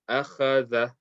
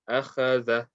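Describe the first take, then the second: Both takes have the same delivery.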